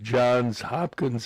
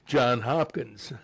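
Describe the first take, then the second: First: The first name ends with an s sound. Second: The first name ends without an s sound. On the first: The speaker calls it right. "instead of Johns Hopkins" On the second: The speaker calls it wrong. "they'll say John Hopkins"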